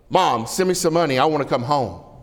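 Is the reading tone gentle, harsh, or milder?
harsh. The letter is read in a harsh, demanding tone. The son sounds rude and demanding. "He better not talk to me that way"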